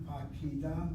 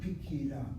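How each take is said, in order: First: The first vowel is a full 'a' sound. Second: The first vowel is reduced to an 'i' sound. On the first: The speaker calls it wrong. "is not Pakida" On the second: The speaker calls it right. "but Pikida"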